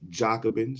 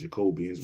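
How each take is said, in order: First: It ends directly in '-bins' with no 'ee' sound. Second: An extra 'ee' sound comes before the last syllable. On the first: The speaker calls it right. "Jacobins is how it's pronounced" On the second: The speaker calls it wrong. "I know I pronounced it wrong"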